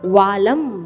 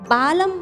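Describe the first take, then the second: First: The word begins with a v sound. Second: The word begins with a b sound. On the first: The speaker calls it right. "ये व वजन का है" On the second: The speaker calls it wrong. "बालम नहीं है"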